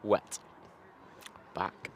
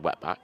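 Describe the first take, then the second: First: A short gap separates the two parts. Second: The name is said as one joined word. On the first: The speaker calls it right. "you've got to leave like a, a, a space between the two words" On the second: The speaker calls it wrong. "Don't think you can say it like that"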